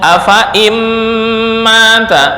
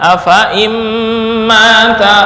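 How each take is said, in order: The two takes are said the same way.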